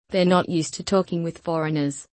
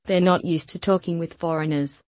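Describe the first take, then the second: No difference in how they are said.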